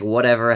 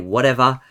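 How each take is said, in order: First: The final R sound is clearly pronounced. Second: The final R sound is left out. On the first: "I pronounce my R's a little bit more" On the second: "a lot of us Australians don't talk like that"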